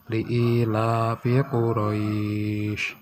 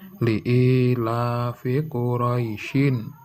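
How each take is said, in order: First: The vowel in Quraisy is drawn out long. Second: The vowel in Quraisy is short, flowing onward. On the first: The reader stops at the end of the verse. "Ini panjang" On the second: The reader continues into the next verse. "Kalau terus itu bisa panjangnya eh, bacanya berbeda"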